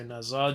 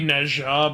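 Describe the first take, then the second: First: The name has a simpler, easier consonant sound. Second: The name has the full, harder consonant sound. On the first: This is the easier form to say. "it's easier to say Neza" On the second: This is the technically correct form. "It's technically Nezha"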